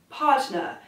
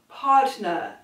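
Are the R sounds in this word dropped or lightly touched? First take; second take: dropped; dropped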